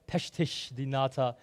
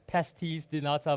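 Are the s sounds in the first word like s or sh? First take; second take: sh; s. First: The first word has sh sounds. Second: The first word has plain s sounds. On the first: The speaker calls it right. "someone was like, no, it's, it's like" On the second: The speaker calls it wrong. "I always thought it's like"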